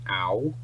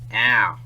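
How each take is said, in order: First: The vowel is said in a British accent. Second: The vowel is said in an Australian accent. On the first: "in British English" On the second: "In Australian English"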